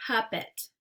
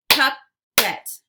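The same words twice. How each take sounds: First: Said in the usual way. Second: Puppet as loud "pup... pet"; split into syllables. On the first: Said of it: "swipe to say the whole word". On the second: Shown as a demonstration. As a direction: punch out both halves of Puppet separately. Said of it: "give you two parts to a word".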